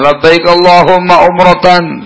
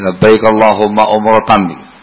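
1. Diucapkan keras, dengan suara yang dinaikkan. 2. Diucapkan pelan, hampir seperti bisikan. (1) "Untuk yang laki-laki keras suaranya" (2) "Untuk wanita dikeraskan tapi cukup untuk didengarkan dia sendiri"

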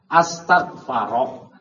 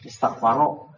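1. Kata ini diawali hamzah putus yang tegas. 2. Kata ini diawali hamzah sambung yang lembut. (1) "Jadi berubah jadi hamzah qata" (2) "ketika jadi nama enggak boleh istak paro"

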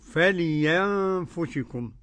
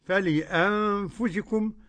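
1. تُبدل الهمزة ياءً. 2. تُنطق الهمزة بوضوح. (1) "والإبدالية" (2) "تحقيق"

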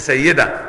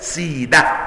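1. يُقال الاسم Sayyida، بتشديد الياء. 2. يُقال الاسم Sidah، بمدّ الحرف i. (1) "ممكن لو قرأت وتقول ابن سيدة، لا" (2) "يقرأ كده سيدة"

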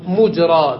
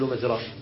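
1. الحركة الأولى هي u. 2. الحركة الأولى هي a. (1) "بضم الميم" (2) "ولا نقول"

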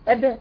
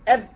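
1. الباء الأخيرة تنفتح من جديد بانفجار قصير. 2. الباء الأخيرة تنغلق وتتوقف بدون صوت. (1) "هجيبه بقى بالتباعد عكس القاعدة" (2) "جبتها بالتصادم على اصول الايه"

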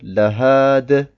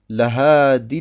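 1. Das Wort wird allein gesprochen und dann gestoppt. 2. Das Wort geht in das nächste Wort über. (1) "wenn wir auf dem ersten Wort stehen bleiben, sagen wir Lahade" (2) "Eigentlich heißt es Lahadi und dann alladhina amanu"

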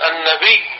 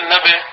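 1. الياء الأخيرة تُمَدّ وتُشدّ. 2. الياء الأخيرة تُنطق مفردة، غير مشددة. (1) "مثل لما نقول" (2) "ما نقول"

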